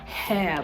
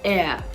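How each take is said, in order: First: The word begins with an audible H sound. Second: The word begins directly with a vowel sound. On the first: The speaker calls it wrong. "they are tempted to want to pronounce this as hair, hair, but it isn't" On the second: The speaker calls it right. "the H is silent in this word"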